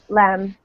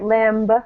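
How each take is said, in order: First: The final B sound is silent. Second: The final B sound is pronounced. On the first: The speaker calls it right. "the B is silent, kind of" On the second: The speaker calls it wrong. "We don't say lamb"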